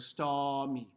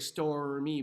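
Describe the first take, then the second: First: The R before the M is almost dropped. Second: The R before the M is clearly pronounced. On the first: The speaker calls it right. "I almost cut it out. Change it into an H" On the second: The speaker calls it wrong. "I don't say stormy"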